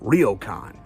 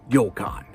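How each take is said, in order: First: It begins with a full English R sound. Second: It begins with a soft sound, not English R. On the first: The speaker calls it wrong. "you may see this and think it's pronounced" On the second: The speaker calls it right. "There isn't an R in the Japanese language, so it's pronounced"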